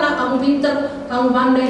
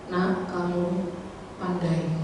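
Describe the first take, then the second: First: Loud, high, insistent encouragement; emphatic praise. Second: Put-on slow, tender praise for a small child; gentle to child. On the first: Retold or imitated. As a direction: drive the praise home with force. Preacher retells praise, rising passion. (pujian lantang dan bersemangat) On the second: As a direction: coax the child softly. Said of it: "Akhirnya saya lembut mengajar". (lembut memuji anak)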